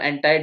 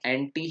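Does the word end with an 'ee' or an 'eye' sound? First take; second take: eye; ee. First: The word ends with an 'eye' sound. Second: The word ends with an 'ee' sound. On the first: The speaker is showing off. The speaker calls it wrong. "अब आपको इतरा के बोलना हो तो एंटाई" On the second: It is the normal, natural way to say it. The speaker calls it right. "हमारे Indian जो accent है ... उसमें एंटी ही यूज़ करते हैं ना"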